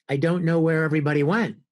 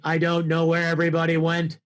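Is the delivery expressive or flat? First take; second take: expressive; flat. First: It has varied pitch and loudness throughout. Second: It keeps an even pitch and loudness throughout. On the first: "instead of saying" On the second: "you don't typically use as much inflection"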